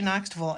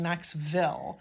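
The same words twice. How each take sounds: First: The last syllable is reduced, like 'vul'. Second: The last syllable is full, like 'vill'. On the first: This is how locals say it. The speaker calls it right. "noticed you say Knoxville" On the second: This marks the speaker as a visitor. The speaker calls it wrong. "I was saying Knoxville"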